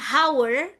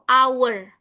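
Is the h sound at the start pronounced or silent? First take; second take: pronounced; silent. First: The word begins with an audible h sound. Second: The word begins with a vowel, no h. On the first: The speaker calls it wrong. "bukan hour" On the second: The speaker calls it right. "silent H. Jadi, bacanya itu hour"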